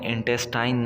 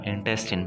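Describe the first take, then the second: First: The last syllable sounds like 'tine'. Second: The last syllable sounds like 'tin'. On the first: The speaker calls it wrong. "इसको आपने इंटेस्टाइन नहीं पढ़ना" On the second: The speaker calls it right. "इंटेस्टिन पढ़ना है"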